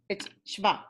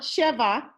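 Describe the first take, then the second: First: The vowel after sh is clipped away. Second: A full vowel is heard after sh. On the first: The speaker calls it right. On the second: The speaker calls it wrong. "It's not sheva. That's the number seven"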